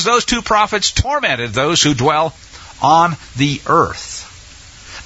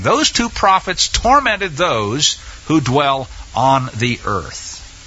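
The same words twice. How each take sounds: First: Said in the usual way. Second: Slow, deliberate stress on "Those two prophets tormented those"; weighty, spaced-out "who dwell on", falling away on "the earth"; emphatic repeat. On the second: Real, not acted. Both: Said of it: "let me emphasize that again".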